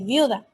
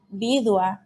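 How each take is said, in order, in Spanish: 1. El sonido d va después de la u. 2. El sonido d va antes de la u.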